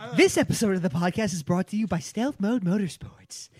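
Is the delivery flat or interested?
interested. It is read with lively interest.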